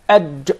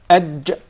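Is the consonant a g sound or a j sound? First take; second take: j sound; j sound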